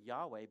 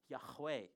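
First: The middle has no clear breathy h sound. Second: The middle has a clear breathy h sound. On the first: The speaker calls it wrong. "I use the word Yahweh, but that's not actually how you pronounce it" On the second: The speaker calls it right. "The ha part is in the middle there"

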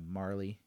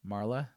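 First: The name ends with an 'ee' vowel sound. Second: The name ends with an 'eh' vowel sound. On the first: "like Carly or something like that" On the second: "So like an eh kind of a sound for the E"

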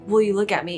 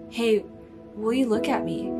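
First: It is said in an angry tone. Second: It is said in a loving tone.

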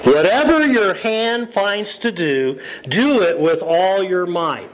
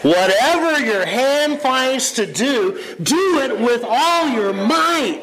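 First: It is read quietly with little energy. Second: It is read loudly with lots of energy. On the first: The speaker calls it wrong. "That was sad. You can't read that verse like that" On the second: The speaker calls it right. "that's the way it's meant to be read"

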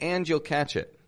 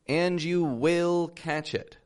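First: 'Will' is shortened and unstressed. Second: 'Will' is said in full and stressed. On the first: It is a plain statement. The speaker calls it wrong. "That wouldn't be putting enough stress on it" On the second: The speaker is trying hard to convince someone. The speaker calls it right. "I really stressed the word will"

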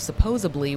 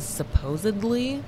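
First: It is said with a b sound. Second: It is said with a d sound. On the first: The speaker calls it wrong. "which is the wrong fucking pronunciation" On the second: The speaker calls it right. "because it has D's"

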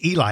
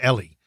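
First: The name is said like 'EE-lie'. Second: The name is said like 'EL-ee'. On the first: The speaker calls it wrong. "I don't think it's Eli" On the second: The speaker calls it right. "I think it's Ellie"

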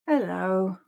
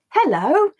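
First: The word sounds sad. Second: The word sounds happy. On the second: "say it happily"

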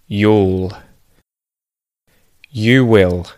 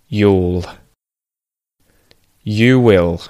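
The two takes are said the same way.

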